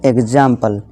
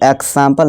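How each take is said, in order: First: The middle cluster sounds like gz. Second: The middle cluster sounds like ks. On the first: The speaker calls it right. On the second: The speaker calls it wrong.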